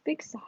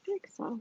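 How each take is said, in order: First: Soft breathy whisper; whispered big sigh. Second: Dramatic sigh. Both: Shown as a demonstration.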